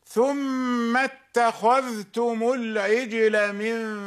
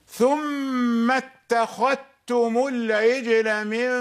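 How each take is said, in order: No difference in how they are said.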